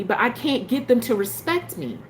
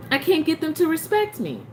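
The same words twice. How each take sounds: First: Said in the usual way. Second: "respect" driven home in a higher voice; emphatic repeat. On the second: Real, not acted. Venting to viewers about her ex, raised and emphatic.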